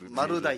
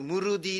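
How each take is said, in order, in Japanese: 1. 標準語の言い方です。maruda iのように言います。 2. 沖縄の言い方です。murudiのように言います。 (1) "マルダイっていうの" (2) "内口で言うとムルディですね"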